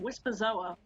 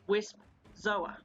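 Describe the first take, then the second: First: An extra vowel joins the two parts together. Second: The two parts are said with no extra vowel. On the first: The speaker calls it wrong. "Why do I keep saying Wispazoa" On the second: The speaker calls it right. "when it's Wisp Zoa"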